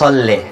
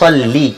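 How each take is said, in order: First: The word ends with an 'e' vowel. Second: The word ends with an 'i' vowel. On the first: The speaker calls it wrong. "আবার অনেকে বলে সল্লে" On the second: The speaker calls it right. "আরবি সঠিক উচ্চারণ, জেরের উচ্চারণ হচ্ছে সল্লি"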